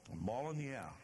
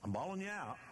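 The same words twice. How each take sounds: First: Half-hearted bawling out; mild scolding. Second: Bawling out. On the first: Jesus scolding his disciples, mild reproach. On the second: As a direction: let the rebuke ring out hard. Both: Retold or imitated. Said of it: "even though he just bawled them out".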